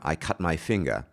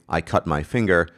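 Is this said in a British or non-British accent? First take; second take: British; non-British. First: It is said in a standard British accent. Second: It is said in a non-British accent. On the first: "a standard British pronunciation person might say" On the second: "I would say"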